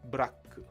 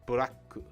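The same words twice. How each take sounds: First: Vowels are inserted between and after the consonants. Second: The same.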